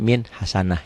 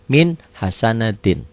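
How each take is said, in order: First: The last word ends in a short 'ah' sound. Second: The last word ends with the full 'atin' ending. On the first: The reader stops at this word. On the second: The reading continues without stopping.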